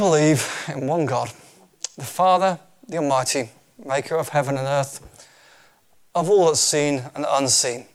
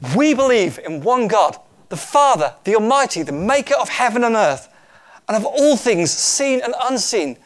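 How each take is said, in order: First: It is read in a plain, calm way. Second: It is read in an excited, lively way.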